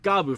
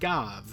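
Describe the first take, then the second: First: The name ends with a 'bu' syllable. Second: The name ends with a 'v' sound. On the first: The speaker calls it right. "like Gabu" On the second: The speaker calls it wrong. "a lot of people pronounce it Gav"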